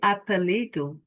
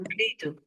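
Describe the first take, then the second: First: The first e is clearly pronounced. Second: The first e is squashed and barely heard. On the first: The speaker calls it wrong. "No, I'm not going to say apelido" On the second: The speaker calls it right. "I'm going to squash this E here"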